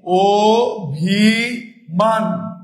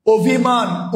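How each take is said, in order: First: অভিমান drawn out slowly as "o-bhi-maan"; syllable-by-syllable pronunciation. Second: Said in the usual way. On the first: Shown as a demonstration. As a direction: spell out অভিমান by sound, each syllable long and separate: o, bhi, maan. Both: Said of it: "আমরা যদি উচ্চারণটা লিখি".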